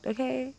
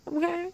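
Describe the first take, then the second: First: Higher questioning "Okay?". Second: "Okay?" pitched very high. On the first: Podcaster checking with listeners, higher questioning "Okay?". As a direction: raise "Okay?" above your usual pitch. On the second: Podcaster pressing listeners, very high questioning "Okay?". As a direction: squeak out a short, high "Okay?". Repeats the question more insistently. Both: Real, not acted.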